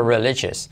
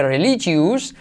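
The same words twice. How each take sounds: First: Religious said "reli-ches", ending reduced to "jes"; religious with a short weak last syllable; right religious. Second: Religious said "reli-chus" with a full "us" ending; religious with a clear "ious" sound at the end; wrong religious. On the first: Teacher modelling the native religious. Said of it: "sino religious". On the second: Teacher showing how not to say religious. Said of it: "que no se dice religious". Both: Shown as a demonstration.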